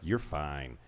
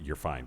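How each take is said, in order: First: It sounds flirtatious and admiring. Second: It sounds flat, meaning merely okay.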